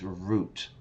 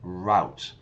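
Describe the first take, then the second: First: It is said with a European pronunciation. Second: It is said with an American pronunciation. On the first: The speaker calls it right. "the pronunciation is route within Europe" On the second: The speaker calls it wrong. "Americans will say routes, yeah, route, but they're wrong"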